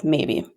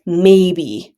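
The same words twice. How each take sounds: First: Said in the usual way. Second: A louder, drawn-out, final maybe; firm louder maybe. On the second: Retold or imitated. Friend shutting down the request, louder final maybe. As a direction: shut it down with one word.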